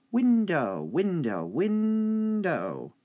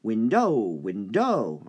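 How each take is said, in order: First: Window said loud and high on WIN; stress on WIN. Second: Window with the wrong syllable stressed; teacher showing window stressed the wrong way. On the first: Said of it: "Win is the stressed part". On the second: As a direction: stress dough instead of WIN in window. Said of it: "All right, not". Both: Shown as a demonstration.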